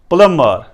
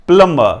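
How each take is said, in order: Both takes have the same delivery.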